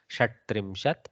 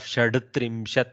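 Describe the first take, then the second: First: A hard consonant comes before the hard t. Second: A soft consonant comes before the hard t. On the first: The speaker calls it right. "one Karkasha with another Karkasha" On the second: The speaker calls it wrong. "instead of Shadtrimshat, which is tough, going from soft to hard"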